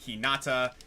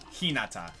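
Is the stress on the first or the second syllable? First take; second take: second; first. First: The stress is on the second syllable. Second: The stress is on the first syllable. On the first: The speaker calls it wrong. "a lot of people say" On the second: The speaker calls it right. "the proper pronunciation oftentimes is"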